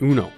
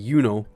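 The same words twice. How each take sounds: First: It is pronounced like the card game. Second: It is not pronounced like the card game.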